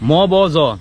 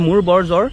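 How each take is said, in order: First: The r sounds are dropped entirely. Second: The r sounds are clearly pronounced.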